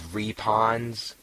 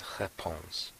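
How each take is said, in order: First: The word is pronounced in a heavy, flat way. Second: The word is pronounced lightly, further back. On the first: The speaker calls it wrong. "Matt says repons... sounds like an Alaskan" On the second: The speaker calls it right. "it's lighter than that, it's like réponse, with a little bit of back there"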